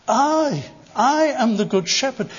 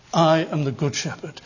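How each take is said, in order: First: "I" set alone and pitched high, then repeated; stress on I. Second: Lower, measured, savoured claim; relishing the thought. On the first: Shown as a demonstration. Preacher shows Christ's emphasis on the pronoun, "I" stressed high. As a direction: hit the pronoun "I" hard, pause, then say the line. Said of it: "the emphasis on the personal pronoun". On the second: Retold or imitated. Preacher quotes Jesus relishing his title, low and savouring. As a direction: savour the words in a lowered pitch. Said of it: "as if he's relishing the thought".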